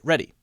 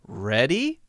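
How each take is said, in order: First: The pitch falls at the end. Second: The pitch rises at the end. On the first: It says that the speaker is ready. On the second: It asks whether someone is ready.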